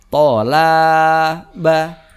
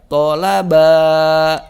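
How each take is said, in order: First: The second syllable's vowel is long. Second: The third syllable's vowel is long. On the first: "maka la-nya yang panjang" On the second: "maka ba-nya yang panjang"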